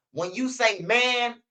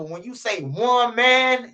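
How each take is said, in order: First: "when you say man" drawn out slowly, leaning on "man"; slow stress on man. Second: "one man" said slowly as a pun on woman, "man" stressed. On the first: Teaching his homies, slowly stressing "man". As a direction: spell it out slow, land on "man". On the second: Teaching his homies, slow stress on "one man". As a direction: drag "when you say one man" out to make the point. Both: Shown as a demonstration. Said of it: "you gotta remember".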